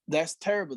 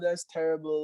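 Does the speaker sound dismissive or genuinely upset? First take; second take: genuinely upset; dismissive. First: It sounds genuinely upset and emotionally engaged. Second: It sounds pitying and condescending. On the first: The listener truly shares the feeling. The speaker calls it right. "I actually feel that emotion that you're sharing" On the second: The listener only appears to connect. The speaker calls it wrong. "or like pity or condescending or whatever"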